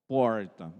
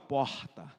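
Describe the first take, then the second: First: It is said with a Piracicaba accent. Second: It is said with a Carioca accent.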